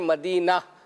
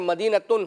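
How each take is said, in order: First: The word ends on an h sound, no t. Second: The word keeps a t sound and its ending. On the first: The reader stops on the word. "हम यहाँ ता नहीं लगाते बल्कि उसकी जगह पर हा लगाते हैं" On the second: The word is read in connected speech. "आखिर में बाज जैसे मदीनतुन है"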